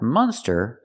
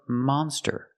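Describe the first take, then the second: First: The first vowel is a closed 'uh' sound. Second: The first vowel is an open 'ah' sound. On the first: The speaker calls it wrong. "not the closed sound. Uh" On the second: The speaker calls it right. "We have to use the open sound monster. Ah"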